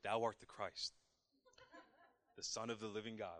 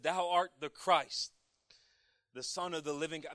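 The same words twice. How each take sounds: First: It is said in a deepened, proud voice. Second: It is read in his normal voice.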